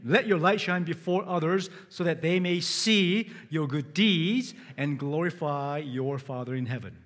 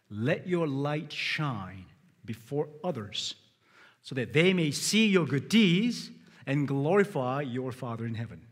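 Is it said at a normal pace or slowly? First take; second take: normal; slowly. First: It is said at a normal pace. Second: It is said slowly and deliberately.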